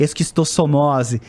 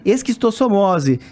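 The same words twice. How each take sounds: First: "Esquistossomose" said slowly, every syllable clear; slow careful pronunciation. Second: Slow "Esquistossomose" in a Carioca accent. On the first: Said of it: "Fala de novo". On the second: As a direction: show off a Rio accent on "Esquistossomose". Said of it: "sotaque carioca". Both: Shown as a demonstration.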